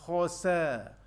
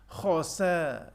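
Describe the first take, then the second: No difference in how they are said.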